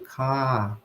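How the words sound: The R is silent and the A is lengthened. "o R não tem som, e esse A ele fica mais longo"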